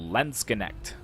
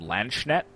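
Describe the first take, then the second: First: Nearly every letter is sounded out. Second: Some of the letters are left silent. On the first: The speaker calls it right. "pronouncing almost all of the letters except for the last E" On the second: The speaker calls it wrong. "I was pronouncing them Landsknecht"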